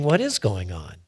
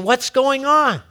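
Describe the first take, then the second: First: Low musing question with "is" picked out; puzzled inner thought. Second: High, louder baffled question; "What's going on" high and falling at the end; puzzled onlooker. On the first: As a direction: stress on "is", pitched lower. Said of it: "And you're thinking". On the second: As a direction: ask it as an amazed onlooker, pitched up. Acted onlookers question the change. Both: Acted.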